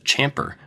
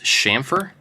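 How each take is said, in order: First: The word begins with a hard ch sound. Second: The word begins with a soft sh sound. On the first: The speaker calls it wrong. "I always just assumed it's a C H" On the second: The speaker calls it right. "It's a sh sound"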